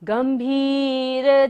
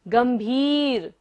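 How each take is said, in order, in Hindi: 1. दूसरा स्वर लंबा बोला जाता है। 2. दूसरा स्वर लंबा बोला जाता है।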